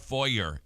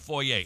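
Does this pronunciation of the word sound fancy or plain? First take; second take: plain; fancy. First: It is said in a plain, everyday way. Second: It is said in a fancy, refined way. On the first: The place is cheap. "if it's a really cheap one" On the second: The place is really nice. "If it's really nice"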